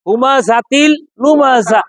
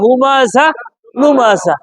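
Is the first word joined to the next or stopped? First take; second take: joined; stopped. First: The first word runs into the next with a t. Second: The first word stops on an h sound. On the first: "মিলাই বললে হুমা জাতিল" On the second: "এটা এভাবেও পড়া যায়"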